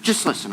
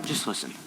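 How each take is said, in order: First: Said in the usual way. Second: Just listen, hushed right down; host hushing listeners before the key line, whispered. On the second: Real, not acted. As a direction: drop to a hush on just listen.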